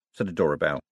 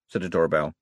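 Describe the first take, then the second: No difference in how they are said.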